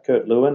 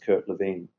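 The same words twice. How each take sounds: First: The name is pronounced the English way. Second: The name is pronounced the German way. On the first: This is the form found in management textbooks. "it could be Kurt Lewin if you're studying management" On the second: This is the original form of the name. "If you know a little bit more about the history, it's Kurt Lewin"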